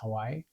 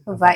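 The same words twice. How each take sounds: First: The middle consonant is a W sound. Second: The middle consonant is a V sound.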